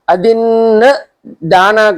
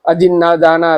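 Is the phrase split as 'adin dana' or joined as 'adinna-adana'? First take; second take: adin dana; adinna-adana. First: It is split into 'adin' and 'dana'. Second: 'Na' and 'a' are joined into one long sound. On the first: Giving what was not given. The speaker calls it wrong. "बहुत सारे लोग इस शब्द को, इस वचन को अदिन दाना करके बोलता है, ये नहीं, गलत है।" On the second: Taking what was not given. The speaker calls it right. "न और आ इसको ज्वाइन कर देता है।"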